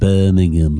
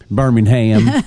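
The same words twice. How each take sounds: First: It is said in an English accent. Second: It is said in a Southern US accent.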